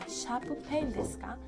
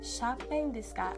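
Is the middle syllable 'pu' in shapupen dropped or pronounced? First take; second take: pronounced; dropped. First: The syllable 'pu' is clearly pronounced. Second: The syllable 'pu' is almost dropped. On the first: "mas você pode falar shapupen desu ka?" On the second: "Às vezes o pu a gente também quase não pronuncia"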